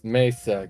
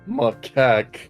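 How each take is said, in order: First: The first syllable sounds like 'may'. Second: The first syllable sounds like 'mack'. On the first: The speaker calls it right. "pronounced it as Maysak" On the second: The speaker calls it wrong. "I remember thinking it was pronounced"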